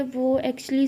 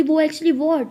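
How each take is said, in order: First: Tentative, in an everyday-level voice; mildly reluctant, left hanging; hesitant start. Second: Louder, higher demanding echo; sharp, pressing question; impatient echo. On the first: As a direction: begin a confession and falter. Tara hesitates, starts to confess. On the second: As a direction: throw the hesitant words back as a challenge. Sia throws the words back impatiently. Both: Acted.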